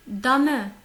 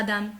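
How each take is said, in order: First: DAME as "da-mè", loud and emphatic; two-syllable German "Dame"; sounded final E. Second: DAME as one syllable, "dam"; wrong version "dame", final e dropped; silent final E. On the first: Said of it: "le E, il n'est pas muet". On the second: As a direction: say dame the French way, ending on m. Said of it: "Ce n'est pas dame". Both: Shown as a demonstration.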